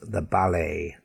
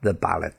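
First: The final T is silent. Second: The final T is pronounced. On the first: The speaker calls it right. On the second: The speaker calls it wrong.

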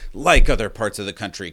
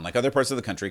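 First: It is read in a put-on, ominous scary voice. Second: It is read in the speaker's normal voice.

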